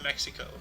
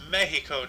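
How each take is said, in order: First: The name is said with an English pronunciation. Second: The name is said with a Spanish pronunciation. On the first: The speaker calls it wrong. "not Mexico" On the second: The speaker calls it right. "in their native tongue"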